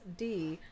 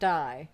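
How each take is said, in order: First: The vowel is a long ee sound. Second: The vowel is an eye sound. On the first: The speaker calls it right. "This is pronounced D" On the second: The speaker calls it wrong. "not die"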